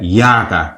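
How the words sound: The word begins with a y sound. This is how Burmese speakers pronounce it. "তারা এই রাকাটাকে উচ্চারণ করবে হচ্ছে ইয়াকা"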